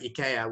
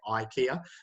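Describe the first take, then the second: First: The first vowel is a single plain 'ee' sound. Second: The first vowel is a gliding 'eye' sound. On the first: This is how most European languages say it. "Instead of saying IKEA" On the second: This is how English speakers say it. "We we put a, a double vowel there"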